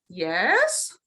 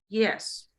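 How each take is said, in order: First: It sounds curious and open. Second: It sounds final and uninterested. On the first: The speaker wants more information. "you're sort of curious" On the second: The speaker wants the conversation to end. "you're not interested in continuing this conversation"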